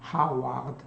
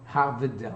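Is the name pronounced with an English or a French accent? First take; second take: French; English. First: The name is said with a French pronunciation. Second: The name is said with an English pronunciation. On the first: "C'est prononcé comme ça en France" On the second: "Harvard en anglais"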